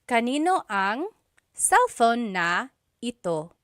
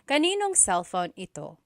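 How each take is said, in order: First: Every word is said fully, without shortening. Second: Words are run together and shortened, said quickly. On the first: This is the technically correct form. "technically there is a na" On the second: This is how people say it in casual speech. "just quickly speaking"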